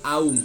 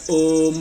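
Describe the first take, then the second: First: The vowel glides from a to u. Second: The vowel is a single plain o sound. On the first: The speaker calls it right. "tapi aum" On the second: The speaker calls it wrong. "Jadi bukan om, bukan gitu ya"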